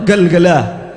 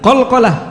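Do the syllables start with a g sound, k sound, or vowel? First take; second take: g sound; k sound. First: The syllables start with a hard g sound. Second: The syllables start with a hard k sound. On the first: This is how Yemenis say it. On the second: This is the common Arabic form.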